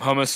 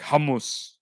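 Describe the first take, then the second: First: The opening h is light and plain. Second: The opening h is strong and breathy. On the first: This is the English way to say it. "the Anglo way to say it" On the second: This is the Arabic way to say it. "the H's are very pronounced in Arabic. Hummus, I think that's how you say it"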